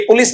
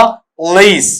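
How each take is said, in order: First: पुलिस as "pu-lis", short vowels; Hindi mispronunciation. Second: पुलिस as "p'leees", long ee; corrected pronunciation. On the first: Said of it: "ये पुलिस नहीं होता है". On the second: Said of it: "इसका उच्चारण इस तरीके से". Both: Shown as a demonstration.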